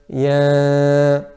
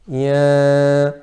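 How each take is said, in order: First: The vowel is nasalized through the nose. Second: The vowel is nasalized through the nose.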